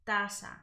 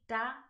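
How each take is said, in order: First: The z is pronounced like an s. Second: The z is pronounced like a th. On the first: This is how it is said in Latin America. "So I'll pronounce it taza, taza, right, with that S sound" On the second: This is how it is said in Spain. "In Spain, where I'm currently living, it sounds with a PH, so it would be"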